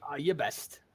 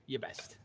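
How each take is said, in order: First: Said in the usual way. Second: A hushed, breathy echo of the words; whispered repeat. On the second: Acted. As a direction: repeat it under your breath.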